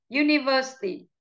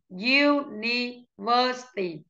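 First: Said in the usual way. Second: Slow, syllable-by-syllable "University"; slow model pronunciation. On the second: Shown as a demonstration. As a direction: spell out "University" by syllables, slowly. (đọc chậm "University" từng âm tiết) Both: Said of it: "đánh trọng âm vào từ".

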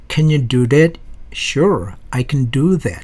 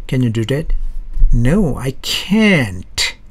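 First: "can" reduced to a quick unstressed "kn"; "I can do that" with "can" short and weak. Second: "can't" stressed and drawn out slowly; "No, I can't" with "can't" clearly punched; strong can't. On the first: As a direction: slide over "can" lightly, barely voiced. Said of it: "just 큰 정도로 약하게 발음해 주는 거야". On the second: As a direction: lean hard on "can't" and stretch it. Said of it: "강한 can't입니다". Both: Shown as a demonstration.

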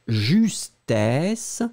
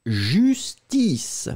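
First: Justesse with an open "è" and a rising end; contrast pronunciation. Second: Justice with a closed "i" and a falling end; contrast pronunciation. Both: Shown as a demonstration. Teacher repeating the pair for students. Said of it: "La différence entre les deux".

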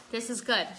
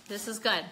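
Both takes have the same delivery.

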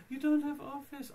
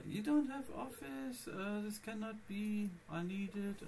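First: High, loud outraged exclamation; shocked. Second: Whiny. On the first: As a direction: blurt it out in disbelief. Mimics shocked accountant. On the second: Mimics accountant again. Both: Retold or imitated.

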